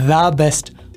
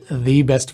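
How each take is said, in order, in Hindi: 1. 'The' में छोटा 'duh' स्वर है। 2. 'The' में लंबा 'dee' स्वर है। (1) "ये दा होता है" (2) "इसे दी बेस्ट कर देते हैं और दी को फिर लंबा भी कर देते हैं"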